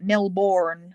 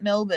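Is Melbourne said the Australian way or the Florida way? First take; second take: Florida; Australian. First: The name is said the Florida way. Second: The name is said the Australian way. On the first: This is the name of the Florida town. "You pronounce it Melbourne" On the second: This is the name of the Australian city. "you don't pronounce it Melbourne in Florida"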